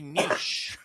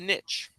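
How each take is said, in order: First: It is said in a fancy, refined way. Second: It is said in a plain, everyday way. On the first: The speaker is being fancy. "if you want to be super fancy" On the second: The speaker is just being ordinary. "But if you're just you"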